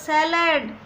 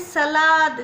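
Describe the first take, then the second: First: It is said the English way, sounding like 'sælad'. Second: It is said the Hindi way, sounding like 'salaad'. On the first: "सैलड बोलते हैं English में" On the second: "Hindi में बोलते हैं सलाद"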